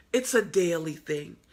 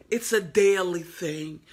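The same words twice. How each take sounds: The two takes are said the same way.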